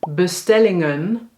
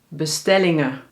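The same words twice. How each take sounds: First: The word ends with an audible n sound. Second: The word ends on a schwa without n.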